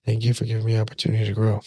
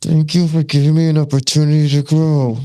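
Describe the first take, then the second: First: Quick, soft and relaxed thank you; softer, faster thanks with anger gone; calm easy thanks. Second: Loud, high thanks through clenched anger; louder, higher forced thank you; forced angry thanks. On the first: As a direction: toss off the thanks with no anger left. Calm thanks after weeks. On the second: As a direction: spit the thanks out while furious. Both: Retold or imitated.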